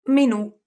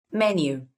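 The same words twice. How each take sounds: First: "Menù" with the stress on the final ù, said high and loud; Italian stress on the end. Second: "Menu" with the stress on the first syllable, MEN-yoo; English stress on the start. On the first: Teacher showing the Italian stress of "Menù" with a high, loud final ù. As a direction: punch the last syllable of "Menù", me-NU, high and loud. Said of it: "in Italian you say menù". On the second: Teacher giving the English "Menu", stressed on the first syllable. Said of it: "in English you say menu". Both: Shown as a demonstration.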